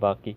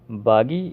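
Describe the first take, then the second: First: The middle consonant is a 'k' sound. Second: The middle consonant is a 'g' sound. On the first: This is the Urdu form. "जिसको हम उर्दू में बाकी बोलते हैं" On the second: This is the spoken Arabic form. "स्पोकन Arabic में इसको बागी बोलते हैं"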